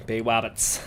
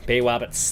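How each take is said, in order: First: Bay Roberts with a W for the R, "wabbits"; Bay Roberts without the R; no R sound. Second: Said in the usual way. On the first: Shown as a demonstration. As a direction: say Roberts as Wobbits, no R at all. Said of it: "they're R's. They can't say their". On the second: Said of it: "they're R's".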